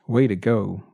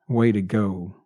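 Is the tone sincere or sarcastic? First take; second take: sincere; sarcastic. First: It sounds sincere and congratulating. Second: It sounds sarcastic and mocking.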